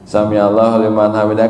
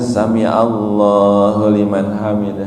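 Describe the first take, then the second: First: The vowels are clipped short, said quickly. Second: The long vowel is drawn out, said slowly. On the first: The recitation is rushed and skips the rules. The speaker calls it wrong. "kan tajwidnya nggak ada gitu" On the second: The recitation follows the rules properly. The speaker calls it right. "Jadi di situ harus"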